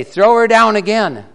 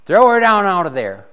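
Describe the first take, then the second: First: Much higher, louder shout on down; stronger command. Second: Raised command, higher and louder; commanding call. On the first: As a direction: yell the order again, harder. King repeats the order. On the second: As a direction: bark the order up at the window. King orders Jezebel thrown down. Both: Acted.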